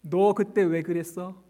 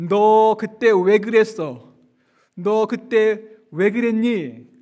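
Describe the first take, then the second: First: A hint of the reproach, slow and light; mock scolding. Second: Louder, slow demanding rebuke; accusing scold. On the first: Preacher lightly echoing the imagined rebuke, half-joking. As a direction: toss off the rebuke half-amused. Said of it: "우리의 과거를 묻지 않으세요". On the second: Acted. Imagined Jesus scolding Peter, loud and slow. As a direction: drag out each word like a stern reproach. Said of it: "이렇게 따져 물을 것이라고".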